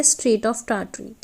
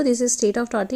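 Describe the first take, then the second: First: Strait of Tartary stretched syllable by syllable; very slow, careful naming; slow dictation. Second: Said in the usual way. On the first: Shown as a demonstration. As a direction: spell it out slowly for the class. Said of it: "teacher dictates strait name slowly". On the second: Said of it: "same name then said normally".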